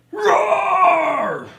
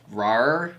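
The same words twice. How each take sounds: First: Screamed roar, much higher and louder; monster roar. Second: Said in the usual way. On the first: Acted. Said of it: "We're getting there".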